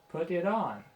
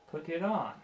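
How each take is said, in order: First: The T sounds are clear stopped Ts. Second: The T sounds are clear stopped Ts.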